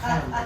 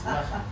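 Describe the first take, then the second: First: One syllable is stressed more than the other. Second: Both syllables get equal stress, run together. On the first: The speaker calls it wrong. "Not lechem" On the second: The speaker calls it right. "Just equal, equal, emphasis"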